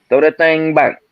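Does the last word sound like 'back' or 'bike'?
back. The last word has a short 'a' vowel. "as opposed to saying you back"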